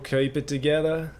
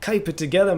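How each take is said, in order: First: It is said in the speaker's usual accent. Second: It is said in a put-on Australian accent.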